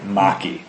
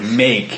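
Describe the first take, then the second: First: The word ends with an added vowel sound. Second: The word ends on the k sound. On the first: The speaker calls it wrong. "instead of like maki" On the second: The speaker calls it right. "you don't pronounce the E"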